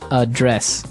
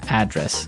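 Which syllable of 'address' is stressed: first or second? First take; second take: second; first. First: The stress is on the second syllable. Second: The stress is on the first syllable. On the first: It is the verb meaning to deal with a problem. "So the verb address has the str- the stress on the second syllable" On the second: It is the noun meaning where someone lives. "And there the stress is on the first syllable"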